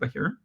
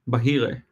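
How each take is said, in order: First: The name is said in an American accent. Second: The name is said in an Israeli accent. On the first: "I keep pronouncing things like I'm American" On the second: "How would I pronounce it if I was Israeli? ... That's how I would say it"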